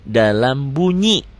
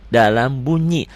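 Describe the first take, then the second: Both takes have the same delivery.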